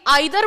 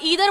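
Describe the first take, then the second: First: It starts with an 'eye' sound, British style. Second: It starts with an 'ee' sound, American style.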